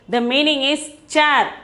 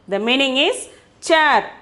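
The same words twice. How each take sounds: The two takes are said the same way.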